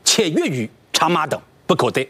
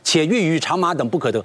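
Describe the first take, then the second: First: It is read in separate beats with pauses. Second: It is read in one run without pauses.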